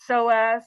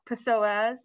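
First: The word starts with an S sound. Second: The word starts with a P sound. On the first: The speaker calls it right. "a silent P. It's psoas" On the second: The speaker calls it wrong. "not psoas"

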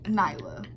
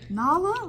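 First: The first vowel sounds like eye. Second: The first vowel sounds like ah. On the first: The speaker calls it right. "it's Nyla" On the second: The speaker calls it wrong. "Like, no"

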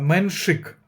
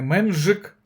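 First: The middle consonant is a voiceless 'sh' sound. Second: The middle consonant is a voiced 'zh' sound. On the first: The speaker calls it right. "а Меншик саме" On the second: The speaker calls it wrong. "Не Менжик"

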